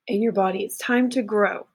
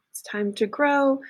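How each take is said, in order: First: Said in the usual way. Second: "It's time to grow" repeated higher, stressing "grow"; emphatic higher repeat. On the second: Shown as a demonstration. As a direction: lift the repeat and lean on "grow".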